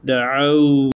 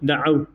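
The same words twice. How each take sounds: First: The final w sound is drawn out longer. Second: The final w sound is short and clipped. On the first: The speaker calls it right. "Uzatacaksınız arkadaşlar" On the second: The speaker calls it wrong. "değil"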